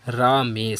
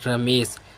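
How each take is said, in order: First: The first vowel is long. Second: The first vowel is short. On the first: The speaker calls it wrong. "ना कि रामेश" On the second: The speaker calls it right. "सही शब्द हमारा बनेगा रमेश"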